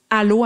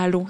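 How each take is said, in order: First: The first vowel starts with a hard, abrupt attack. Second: The first vowel starts gently and relaxed. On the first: The speaker calls it wrong. "avec un A qui est plus comme une attaque dure" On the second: The speaker calls it right. "plus doux dans la gorge, puis plus euh, relâché"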